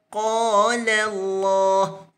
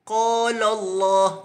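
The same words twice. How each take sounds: First: The L in qala is light and thin. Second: The L in qala is heavy and thick. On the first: The speaker calls it right. "lam pada qala tu mesti dinipiskan" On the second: The speaker calls it wrong.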